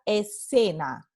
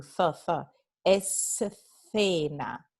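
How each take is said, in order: First: Escena with the c as a plain s; Latin American escena. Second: Escena slowed, c said as th with tongue between teeth; Castilian escena. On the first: Teacher contrasting dialects, escena with plain s. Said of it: "En casi todo el mundo hispanohablante se pronuncia". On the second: Teacher contrasting dialects, Castilian th in escena. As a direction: stretch escena with a th. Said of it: "Se pronuncia escena". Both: Shown as a demonstration.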